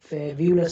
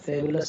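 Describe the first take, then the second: First: A 'y' sound follows the 'b'. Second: No 'y' sound follows the 'b'. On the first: The speaker calls it wrong. "फेब्यूलस नहीं होता" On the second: The speaker calls it right. "फेबुलस होता है"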